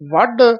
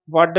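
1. ਅੰਤਲਾ ਵਿਅੰਜਨ ਇੱਕ ਅਸਪਿਰੇਟਿਡ dh ਧੁਨੀ ਹੈ। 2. ਅੰਤਲਾ ਵਿਅੰਜਨ ਇੱਕ ਸਾਦੀ d ਧੁਨੀ ਹੈ। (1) "ਢੱਡਾ ਬੋਲਣਾ ਹੈ" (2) "ਡੱਡਾ ਡਮਰੂ ਵਾਲਾ ਨਹੀਂ ਬੋਲਣਾ"

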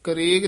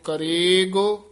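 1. ਇਹ ਸ਼ਬਦ ਛੋਟਾ ਅਤੇ ਝਟਕੇ ਨਾਲ ਬੋਲਿਆ ਜਾਂਦਾ ਹੈ। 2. ਇਹ ਸ਼ਬਦ ਲੰਮਾ ਖਿੱਚ ਕੇ ਬੋਲਿਆ ਜਾਂਦਾ ਹੈ। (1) "ਨਹੀਂ ਕਹਿਣਾ" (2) "ਲਮਕਾ ਕੇ ਬੋਲਣਾ ਹੈ"

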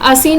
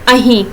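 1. ਵਿਚਕਾਰਲਾ ਵਿਅੰਜਨ s ਧੁਨੀ ਹੈ। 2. ਵਿਚਕਾਰਲਾ ਵਿਅੰਜਨ h ਧੁਨੀ ਹੈ। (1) "ਅਸੀਂ ਨੂੰ ਬੋਲਦੇ ਆ" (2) "ਸੱਸੇ ਨੂੰ ਹਾਹੇ ਵਿੱਚ ਪ੍ਰਯੋਗ ਕਰਦੇ"

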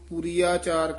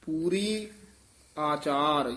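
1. ਦੋਵੇਂ ਸ਼ਬਦ ਇਕੱਠੇ ਬੋਲੇ ਜਾਂਦੇ ਹਨ। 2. ਦੋਵੇਂ ਸ਼ਬਦ ਵੱਖ-ਵੱਖ ਬੋਲੇ ਜਾਂਦੇ ਹਨ। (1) "ਕਈ ਇਹਨੂੰ ਪੂਰੀ ਆਚਾਰ ਕਹਿ ਜਾਂਦੇ ਹਨ" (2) "ਨਖੇਰ ਕੇ ਪੜ੍ਹਨਾ"

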